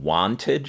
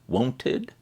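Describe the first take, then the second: First: The first vowel sounds like the vowel in want. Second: The first vowel sounds like the vowel in won't. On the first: "if you want her to sing wanted" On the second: "she sings won'ted, like won't"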